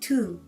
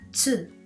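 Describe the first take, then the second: First: It starts with a plain t sound. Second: It starts with a ts sound. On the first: The speaker calls it wrong. "the pronunciation of this letter is not tu" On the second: The speaker calls it right. "it is tsu"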